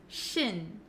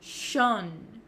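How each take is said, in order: First: The ending has a short unrounded vowel. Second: The ending has a rounded 'o' vowel. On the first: The speaker calls it right. "we actually pronounce it as shin" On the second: The speaker calls it wrong. "a lot of students say shon, shon. They make that O sound"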